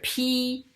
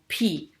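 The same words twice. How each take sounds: First: The syllable is said with a high level pitch. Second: The syllable is said with a sharply falling pitch.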